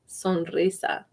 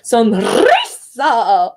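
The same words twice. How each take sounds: First: The R is a single short tap. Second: The R is rolled with a long trill. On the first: The speaker calls it right. "So it's just like a short trill" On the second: The speaker calls it wrong. "I don't really trill it. I don't say sonrisa"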